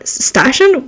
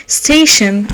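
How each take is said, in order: First: "station" said as /stæʃən/ with a flat a; questioning "station" with a flat a; station said oddly. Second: "Station" said as /steɪʃən/ with a long ay; settling on "Station" with a long ay; station corrected. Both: Shown as a demonstration.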